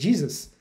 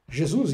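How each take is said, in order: First: It is pronounced the English way. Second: It is pronounced the Portuguese way. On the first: "como é o caso do inglês" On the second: "Jesus em português"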